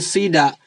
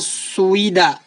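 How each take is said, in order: First: The word begins with 'si', one vowel. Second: The word begins with 'sui', two vowels. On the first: The speaker calls it right. "Maka dia ditarik langsung menjadi sida" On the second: The speaker calls it wrong. "gak mungkin dibaca suida"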